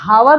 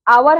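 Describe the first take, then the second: First: The word begins with an audible H sound. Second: The word begins directly with a vowel sound. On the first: The speaker calls it wrong. "इसको हम हावर नहीं पढ़ते" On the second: The speaker calls it right. "आवर है"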